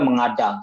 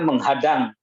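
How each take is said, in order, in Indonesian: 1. Vokal setelahnya tanpa bunyi h. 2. Bunyi h muncul sebelum vokal kedua. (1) "puritan banget, jadi ngomongnya mengadang" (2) "ngomongnya benernya menghadang"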